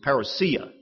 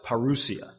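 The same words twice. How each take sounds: First: It is said in a flat Midwestern accent. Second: It is said without the flat Midwestern accent. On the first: The speaker calls it wrong. "But that was with that flat Midwestern accent" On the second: The speaker calls it right. "when I got educated, I realized it's parousia"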